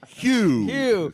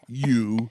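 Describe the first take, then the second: First: The word begins with an audible h sound. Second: The word begins without an h sound. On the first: The speaker calls it right. "Pronounce the huh" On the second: The speaker calls it wrong. "Not you"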